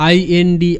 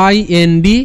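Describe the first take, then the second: No difference in how they are said.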